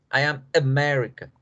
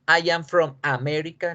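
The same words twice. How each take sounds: First: "America" with weak schwa A's, stress on MER; corrected English pronunciation. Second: "America" with full Spanish A at both ends; Spanish-style pronunciation. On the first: Teacher correcting the Spanish-style version, English pronunciation. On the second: Teacher showing what not to say any more, Spanish-style pronunciation. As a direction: say "America" with open Spanish vowels, as the mistake. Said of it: "no voy a volver a decir América". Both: Shown as a demonstration.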